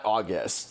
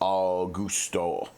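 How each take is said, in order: First: The name ends on a consonant sound. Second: The name ends with an added vowel sound. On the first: The speaker calls it wrong. "not August" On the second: The speaker calls it right. "the characters and stuff pronounce his name Augusto"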